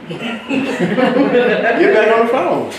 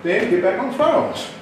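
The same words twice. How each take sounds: First: Slow, laughing through the words; amused, drawn-out repeat. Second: Said in the usual way. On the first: Shown as a demonstration. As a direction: drag it out while cracking up.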